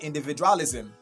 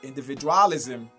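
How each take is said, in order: The two takes are said the same way.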